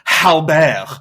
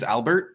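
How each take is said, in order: First: The name starts with an added 'h' sound. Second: The name starts with a vowel sound. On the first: This is how people in Quebec say it. "people have a hard time saying his name. It's Halbert" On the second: This is the name as it should be. "my dad's name is Albert"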